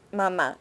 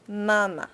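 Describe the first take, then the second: First: Mamá with the stress on the last syllable; Spanish mamá, weight on the second syllable; accented final syllable. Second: Mama with the stress on the first syllable; front-stressed mama, second syllable weak; missing accent mark. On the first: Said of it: "If you didn't have that accent mark". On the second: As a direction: say mama as MA-ma, falling away. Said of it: "it would sound like mama". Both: Shown as a demonstration.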